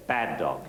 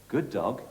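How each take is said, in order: First: Low falling bad dog; demo scolding. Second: Soft praising good dog; demo praise. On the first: Trainer showing the correction, low and firm. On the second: Trainer showing praise feedback, softly. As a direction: say good dog gently as reward. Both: Shown as a demonstration. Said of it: "I'm gonna say".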